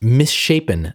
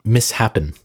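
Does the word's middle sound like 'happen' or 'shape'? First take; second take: shape; happen. First: It is split as 'miss' plus 'shapen'. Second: It is split as 'mis' plus 'happen'. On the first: The speaker calls it right. "it was pronounced misshapen" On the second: The speaker calls it wrong. "not mishappen"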